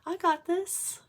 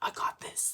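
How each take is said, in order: First: It sounds calm and gently confident. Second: It sounds tough and battle-hardened.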